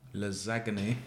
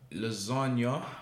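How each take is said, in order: First: The word is said a quirky, nonstandard way. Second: The word is said the standard, usual way. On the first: The speaker calls it wrong. "that's what I like to call it. Even though it's not said" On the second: The speaker calls it right. "you said it right"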